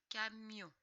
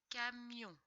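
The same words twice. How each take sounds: The two takes are said the same way.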